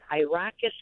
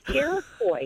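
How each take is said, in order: First: The name sounds like the word Iraqis. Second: The name sounds like Iroquois. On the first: The speaker calls it wrong. "he says, well, we've hit Iraqis County" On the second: The speaker calls it right. "I said, it's Iroquois"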